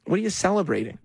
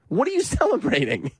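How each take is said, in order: First: Higher, mildly indignant mock question; lightly mock a challenge to the crowd. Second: High-pitched, incredulous mock question; mock incredulity. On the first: Host mimicking candidate to the crowd, mildly indignant question. Mocking candidate's speech, first take. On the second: Host repeating candidate's question to the crowd, heightened mock incredulity. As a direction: push the question up into laughing disbelief.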